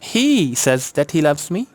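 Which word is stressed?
he. The stress falls on the first word, he. That particular person is the one who says it. "Stress है ही पे।"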